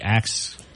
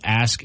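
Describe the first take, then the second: First: The 'k' sound comes before the 's' sound. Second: The 's' sound comes before the 'k' sound. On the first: "some people will put an X sound ... it'd be ax" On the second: "Instead of ask"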